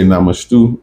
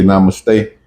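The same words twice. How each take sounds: First: "namastu" said nah-mah-STOO, ending on -stoo; African namastu. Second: "namaste" said nah-mah-STAY, ending on -stay. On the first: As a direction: give "namastu" the African-dialect ending, -stu instead of -stay. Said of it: "So the Hindus say namaste". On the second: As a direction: say "namaste" the Hindi way, closing on a long -stay. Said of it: "We say namastu in our African dialect". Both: Shown as a demonstration.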